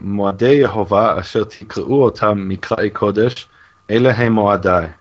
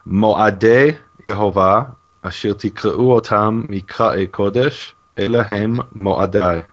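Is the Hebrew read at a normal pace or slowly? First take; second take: normal; slowly. First: The phrase is read at a normal pace. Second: The phrase is read slowly.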